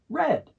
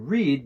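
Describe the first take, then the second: First: The word sounds exactly like red. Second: The word does not sound like red. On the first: It is the past tense. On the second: It is the present tense.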